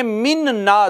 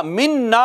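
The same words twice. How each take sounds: First: "मिन ना" as two words, first n sounded on its own; असल रूप. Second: "मिन्ना" joined on one doubled n; इदगाम के साथ. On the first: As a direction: separate "मिन" from "ना". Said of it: "असल में मिन ना था". ("मिन ना" में दोनों नून अलग) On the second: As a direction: merge both noons in "मिन्ना". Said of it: "इदगाम हो गया तो मिन्ना". ("मिन्ना" में नून पर शद) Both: Shown as a demonstration.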